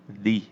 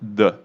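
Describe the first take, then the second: First: It has a long, tense 'thee' vowel. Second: It has a short, weak 'thuh' vowel. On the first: The next word starts with a vowel sound. "se ela tem o som de vogal, aí tem o som de the" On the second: The next word starts with a consonant sound. "Se ela tiver o som de consoante, eu vou falar the, o clássico que todo mundo sabe"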